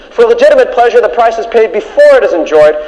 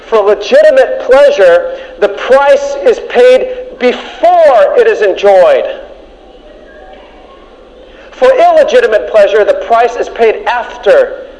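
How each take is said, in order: First: Said in the usual way. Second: Each word spaced out, slow; slow and deliberate. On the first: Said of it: "listen carefully now". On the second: Shown as a demonstration. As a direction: drive the point home slowly. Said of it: "listen carefully now, because this is number one".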